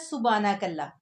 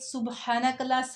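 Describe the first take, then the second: First: The h sound after 'su' is left out. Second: The h sound after 'su' is clearly pronounced. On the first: The speaker calls it wrong. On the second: The speaker calls it right.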